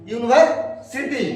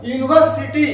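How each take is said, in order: First: Slow model word. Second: Said in the usual way. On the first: Shown as a demonstration.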